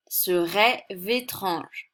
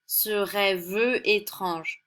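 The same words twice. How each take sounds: First: "rêve" linked straight into "étrange": rê-vé-trange, slow; with liaison. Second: "rêve" with its E sounded before "étrange": rê-veu étrange, very slow; very slowly sound the E of "rêve" as "veu", then "étrange"; without liaison. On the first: Teacher demonstrating the liaison slowly, "rêve" flowing into "étrange". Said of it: "Pour ne pas avoir une prononciation qui n'est pas très agréable". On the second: Teacher showing the clumsy version, E of "rêve" pronounced. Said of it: "une prononciation qui n'est pas très agréable à l'oreille". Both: Shown as a demonstration.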